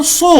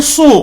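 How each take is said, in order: First: سو with heavy sad and pesh; model syllable. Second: سو with heavy rounded sad; model syllable. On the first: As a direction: say سو full and rounded. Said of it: "پیش کے ساتھ پڑھیں". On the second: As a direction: say سو thick and rounded. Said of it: "پہلے زبر سے پڑھیں". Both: Shown as a demonstration. Teacher drills sad with pesh.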